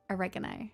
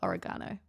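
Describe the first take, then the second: First: It uses a non-Australian pronunciation of the word. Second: It uses the Australian pronunciation of the word. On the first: "not oregano" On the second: "in Australia we call it oregano"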